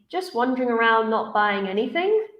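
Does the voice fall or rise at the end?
rises. The voice rises at the end. The speaker has more to say. The speaker calls it wrong. "it sounds unfinished"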